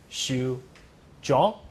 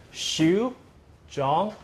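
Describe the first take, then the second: First: "shu, zhong" with a lowered, shorter first word; don't raise "shu", let "zhong" rise; pronounced together. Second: "shu, zhong" apart, each with a full rise; separate citation tones. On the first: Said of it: "when I pronounce it together". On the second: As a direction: draw "shu" upward, pause, then "zhong". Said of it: "But when I pronounce it together". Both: Shown as a demonstration.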